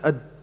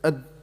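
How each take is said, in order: No difference in how they are said.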